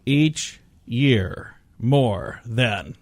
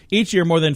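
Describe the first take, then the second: First: The phrase is read very slowly. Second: The phrase is read at a faster pace. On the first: "I need to read it really slow" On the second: "I'll read it faster than that"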